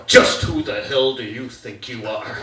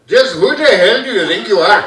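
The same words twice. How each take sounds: First: Low mock-stern dad. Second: Put-on loud Indian-accented dad; mock Indian father demanding an answer. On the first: Dad challenges his son, stern and low. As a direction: demand it like an indignant father. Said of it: "my dad just pulled this one".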